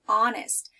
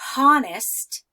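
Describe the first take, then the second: First: The word starts with a vowel; H is silent. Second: An H sound is pronounced before the vowel. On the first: The speaker calls it right. "I start with the O sound, ah" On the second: The speaker calls it wrong. "I don't say honest, right?"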